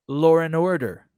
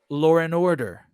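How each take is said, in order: No difference in how they are said.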